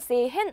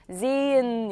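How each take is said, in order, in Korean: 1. h는 발음하고, 모음은 짧게 읽어요. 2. h는 묵음이고, 모음은 길게 읽어요. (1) "sehen 아니고" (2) "묵음되고 장음된다"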